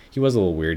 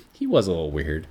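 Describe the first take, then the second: First: "He was a little weird" repeated louder, insisting; louder insistent repeat. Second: Said in the usual way. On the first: Real, not acted. To listeners about Peter, repeating louder and insistent.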